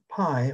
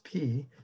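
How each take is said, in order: First: It is said the common English way. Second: It is said the Greek way. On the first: This is how scientists say it. "when scientists use pi" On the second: This is how the Greeks said it. "it's pronounced p. That's the way the Greeks did"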